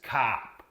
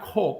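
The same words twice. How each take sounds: First: The vowel is an open 'ah' sound. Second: The vowel is rounded, like British 'aw'. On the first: The speaker calls it right. "it's cop" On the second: The speaker calls it wrong. "So it's not cop"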